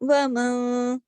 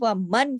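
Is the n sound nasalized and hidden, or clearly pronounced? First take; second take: nasalized; clear. First: The n is hidden with a nasal hum. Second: The n is pronounced fully and clearly. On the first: The speaker calls it right. "थोड़ा-सा इख़्फ़ा करते हुए थोड़ी-सी गुन्ना कर दिया ... थोड़ी-सी आवाज़ नाक पे चली जाती है" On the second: The speaker calls it wrong. "सीधा-सीधा क्लियर नहीं"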